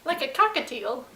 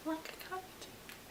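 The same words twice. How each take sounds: First: Said in the usual way. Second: Slow, breathy whisper of the punchline. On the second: Shown as a demonstration. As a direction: whisper it slowly to tease. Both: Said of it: "repeated in a different way".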